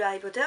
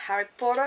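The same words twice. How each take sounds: First: Said in the usual way. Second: Harry Potter in put-on English pronunciation; English accent. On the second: Shown as a demonstration. Vlogger revealing pyjamas to viewers, English accent. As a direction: give the name an English accent. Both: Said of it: "mon magnifique accent anglais".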